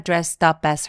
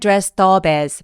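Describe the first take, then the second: First: The p links into as with a tense p. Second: The p links into as sounding like b. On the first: The speaker calls it right. "살짝 된 소리를 내시는 게 더 자연스러워요" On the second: The speaker calls it wrong. "비읍처럼 발음하시는 분들 많거든요 ... B로 인지가 되기 때문에"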